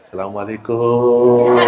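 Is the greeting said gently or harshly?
gently. The greeting sounds soft and gentle. It suits people who like softness and politeness. "Begitu saya datang ke Indonesia, saya berubah lagi"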